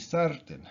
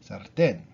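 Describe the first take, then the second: First: The stress is on the first syllable. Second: The stress is on the last syllable. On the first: The speaker calls it wrong. "normally would be sartén, right? Because it ends in an N" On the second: The speaker calls it right. "we put the accent on the on the A, on the last syllable"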